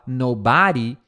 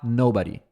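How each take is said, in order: First: The stress is on the second syllable. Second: The stress is on the first syllable. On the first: The speaker calls it wrong. "em vez de você falar nobody" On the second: The speaker calls it right. "tenta falar nobody"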